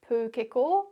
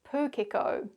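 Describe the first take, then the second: First: It is said with Māori sounds and vowels. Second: It is said with English sounds and patterns. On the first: "the Māori pronunciation" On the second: "the anglicised version"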